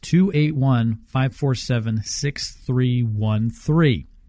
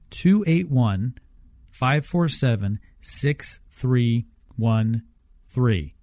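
First: The number is said at normal speed. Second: The number is said slowly.

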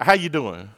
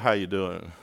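First: It is said as a plain greeting. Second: It is said in a flirtatious way.

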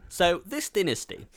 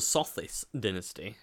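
First: It sounds like the two words 'so this'. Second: It sounds like one single name, Sothis. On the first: The name was misread because it lacks a space. The speaker calls it wrong. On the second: The name of an ancient Egyptian god is meant. The speaker calls it right.

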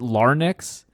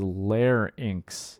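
First: The word is pronounced in an unusual, comic way. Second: The word is pronounced in the usual, standard way. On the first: It imitates a line from a film for fun. The speaker calls it wrong. "So I've been saying it like that again, you know, just for the comic aspect of it" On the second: It is the dictionary pronunciation. The speaker calls it right. "Looking it up online, it says the pronunciation is"

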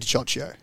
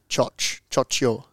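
First: The name is said in an anglicized, Australian way. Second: The name is said with a 'ch' sound. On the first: "Australian pronunciation? I just say Diccocio" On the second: "It's like CH, so it's like Choccio"

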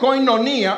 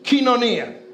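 First: The first syllable sounds like 'koy'. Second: The first syllable sounds like 'kee'. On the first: The speaker calls it wrong. "phonetically, it sounds like koinonia" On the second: The speaker calls it right. "It's pronounced kinonia"

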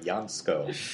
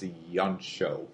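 First: The middle consonants sound like 'sk'. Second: The middle consonant sounds like 'ch'. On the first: The speaker calls it wrong. "For years, I've been calling him Jansko, but no" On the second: The speaker calls it right. "apparently it's Jancho"

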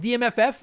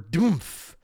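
First: The name is spelled out as separate letters. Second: The name is read as a single word. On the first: "I don't know if I'm supposed to pronounce it as DMFF" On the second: "So I'm going to go with Doomf"

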